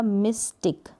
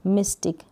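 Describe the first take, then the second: First: मिस्टिक split as miss, then tick; sounded out. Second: Said in the usual way. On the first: Shown as a demonstration. Teacher showing Y mid-word, मिस्टिक in two parts. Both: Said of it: "ई पढ़ते हैं syllable के बीच में".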